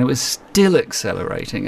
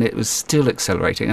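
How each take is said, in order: First: Escalating amazement, "still" held longer. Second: "still" stressed, first step of a build. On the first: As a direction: hang on the start of "still", then release. Repeats it to show relentless acceleration. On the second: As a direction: lean on "still" with a raised pitch. Retells escalating surprise at bike's acceleration. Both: Retold or imitated.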